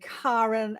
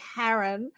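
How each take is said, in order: First: The first syllable sounds like the word car. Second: The first syllable does not sound like car. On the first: The speaker calls it right. "just think of car like you drive a car and then rent" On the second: The speaker calls it wrong. "and not Karen"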